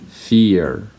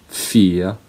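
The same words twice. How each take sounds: Both takes have the same delivery.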